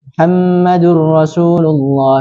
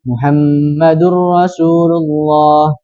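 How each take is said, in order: First: It is recited at a fast pace. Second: It is recited at a medium pace. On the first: "Adapun yang cepat akan terlihat cepat juga" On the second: "Kemudian yang sedang, berarti otomatis terlihat sedang"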